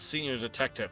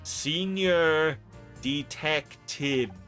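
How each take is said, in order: First: It is said at normal speed. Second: It is said slowly and deliberately.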